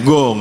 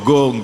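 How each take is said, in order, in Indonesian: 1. Diawali bunyi g keras dan tertutup. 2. Diawali bunyi g keras dan tertutup.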